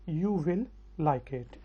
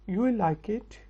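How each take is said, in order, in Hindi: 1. 'You will' को दो पूरे शब्दों की तरह बोला जाता है। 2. 'You will' को छोटा करके एक छोटे अक्षर में बोला जाता है।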